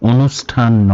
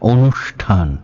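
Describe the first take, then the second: First: The middle hissing sound is like 's'. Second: The middle hissing sound is like 'sh'. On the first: The speaker calls it wrong. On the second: The speaker calls it right.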